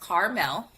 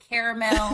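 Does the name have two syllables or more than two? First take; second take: two; more than two. First: The name is said with two syllables. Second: The name is said with more than two syllables. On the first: This is how the name is really pronounced. The speaker calls it right. "my name is pronounced Carmel with the two syllables" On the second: Other people misread the name this way. The speaker calls it wrong. "sometimes people, depending on their accent and if they're just reading it too fast, will go caramel"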